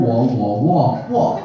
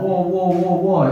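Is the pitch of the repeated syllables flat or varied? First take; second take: varied; flat. First: Each syllable is said with a different pitch. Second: Every syllable is said on one flat pitch. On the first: Each syllable has a different meaning. The speaker calls it right. "beda pengucapan beda artinya" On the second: The meaning can be misunderstood. The speaker calls it wrong. "orang-orang luar itu kan udah datar semua"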